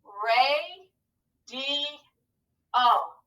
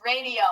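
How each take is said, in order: First: "Ray, D, O" stretched, with pauses between syllables. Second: Said in the usual way. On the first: Shown as a demonstration. Teacher proofing the word for pupils, syllable by syllable. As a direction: sound out "Ray, D, O" one held beat at a time. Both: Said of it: "Let's scoop it to proof it".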